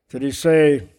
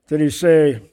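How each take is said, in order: No difference in how they are said.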